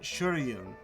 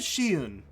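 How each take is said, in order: First: The name is said with an R sound. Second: The name is said without an R sound. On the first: This is how others have been saying the name. "they've been pronouncing it Shuryun. They put an R in there" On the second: This is how the name is written. "It says Shiyun"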